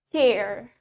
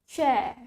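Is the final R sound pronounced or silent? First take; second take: pronounced; silent. First: American accent, the final R is clearly heard. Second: British accent, the final R is not heard. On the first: "in American accent, we pronounce it as chair" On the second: "In British accent, we pronounce it as chair"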